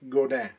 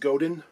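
First: It is said with a Quebec French pronunciation. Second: It is said with an anglicized pronunciation. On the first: "In Quebecois, it's more like Godin" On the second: "You might hear it pronounced as Godin"

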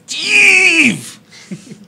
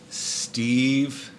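First: The name is said in a mad, angry tone. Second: The name is said in a plain, neutral tone. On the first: The speaker calls it right. "a certain way that you have to say it when you're mad at him" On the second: The speaker calls it wrong. "I said it wrong"

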